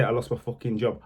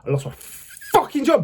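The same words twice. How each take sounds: First: Said in the usual way. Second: High, incredulous angry burst; angry outburst. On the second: Real, not acted. Ex-prisoner recalls being sacked, angry and incredulous. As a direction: relive the outrage, pitch shooting up. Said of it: "I'm still feeling angry about that".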